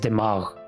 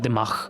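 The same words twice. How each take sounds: First: The word ends in a voiced throaty gh sound. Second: The word ends in a voiceless throaty kh sound. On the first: The speaker calls it right. "the word brain in Urdu is dimagh" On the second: The speaker calls it wrong. "with the K H at the end"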